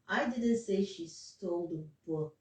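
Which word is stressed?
book. The word book carries the main stress. She stole something else, not the book. "that's what I was stressing on"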